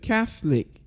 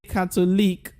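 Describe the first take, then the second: First: The middle syllable is dropped, giving two syllables. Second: The middle syllable is pronounced, giving three syllables. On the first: The speaker calls it right. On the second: The speaker calls it wrong.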